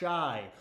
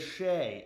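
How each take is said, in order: First: The name is said with an 'eye' vowel. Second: The name is said with an 'ay' vowel. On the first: The speaker calls it wrong. "It is not Shy" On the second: The speaker calls it right. "It is Shea"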